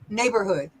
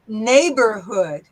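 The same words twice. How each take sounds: First: It is said smoothly at normal speed. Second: It is said slowly, syllable by syllable.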